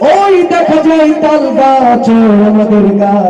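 It is recited in a preacher's sermon style. "আমাদের দেশের ওয়াইজিন যারা বক্তা তাদের কাছে যদি আবৃত্তি করতে বলি"

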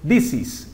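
The words are linked smoothly together.

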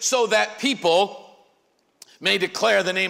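The word 'that' is unstressed, joined to 'so'. Because of these things, people will praise the Lord. "The correct way to read that line is this"

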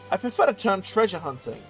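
It is said in a put-on foreign voice.

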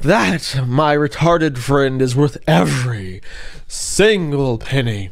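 It is read in a dramatic, exaggerated way.

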